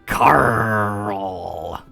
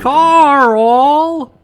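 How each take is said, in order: First: It is said in a gruff pirate voice. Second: It is said in an ordinary, plain voice. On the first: The speaker calls it right. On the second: The speaker calls it wrong.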